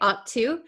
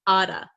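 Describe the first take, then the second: First: The T is said as a clear T. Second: The T is a quick flap like D. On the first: "we can say ought to" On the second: "this double T here becomes a flap T, which sounds like a D sound"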